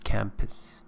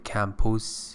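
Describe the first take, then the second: First: The second vowel is a reduced schwa. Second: The second vowel is a full, clear vowel. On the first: The speaker calls it right. "this is a schwa in pronunciation" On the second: The speaker calls it wrong. "don't say campus"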